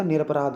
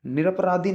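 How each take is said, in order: First: निरपराध ending on dh, no final i; correct form. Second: निरपराधी with a mistaken final long i; wrong form. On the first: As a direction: teach निरपराध cut off at "raadh". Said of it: "निरपराध होता है भाई". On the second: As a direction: show निरपराधी ending in "dhee", as the error. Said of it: "निरपराधी नहीं होता". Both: Shown as a demonstration.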